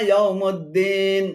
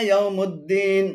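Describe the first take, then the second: No difference in how they are said.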